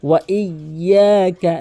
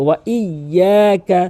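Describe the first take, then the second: First: The y sound is held and doubled. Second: The same.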